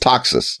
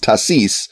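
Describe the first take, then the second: First: The name is said with a German pronunciation. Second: The name is said with a French pronunciation. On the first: This follows the language of the title. "Since it's a German title, it's Taxis" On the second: This follows how she herself probably spoke. "since she was probably speaking French, it's Tassis"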